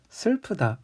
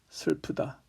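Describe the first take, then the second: First: It is said in an imitated female voice. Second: It is said in a deep male voice.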